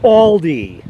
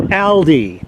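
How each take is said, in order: First: "Aldi" said as ALL-dee; "Aldi" starting like "all"; US pronunciation. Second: "Aldi" said as AL-dee; "Aldi" starting like the name Al; rejected pronunciation. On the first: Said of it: "That's how it's pronounced in the U S". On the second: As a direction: say "Aldi" with the a of "pal". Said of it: "not Aldi". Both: Shown as a demonstration.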